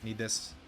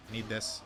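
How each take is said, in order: Both takes have the same delivery.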